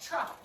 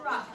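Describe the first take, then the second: First: It starts with a 'ch' sound, said quickly. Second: It starts with a clear 't' sound. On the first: "Sometimes it sounds like truck ... We say it fast, and that's why you hear the chuck sound" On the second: "but it's truck"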